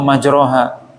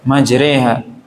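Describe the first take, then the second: First: The vowel after r is a clear a. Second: The vowel after r lies between a and i. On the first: The speaker calls it wrong. "atau majroha" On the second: The speaker calls it right. "antara fathah dengan kasrah"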